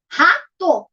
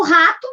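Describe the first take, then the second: First: RATO split into two beats, RA, TO; syllable by syllable. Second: Said in the usual way. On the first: Shown as a demonstration. Teacher counts the two syllables for pupils, syllable by syllable. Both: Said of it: "tem duas sílabas".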